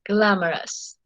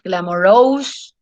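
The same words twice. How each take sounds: First: The stress is on the first syllable. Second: The stress is not on the first syllable. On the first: The speaker calls it right. "The stress is in gla" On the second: The speaker calls it wrong. "So it's not glamorous"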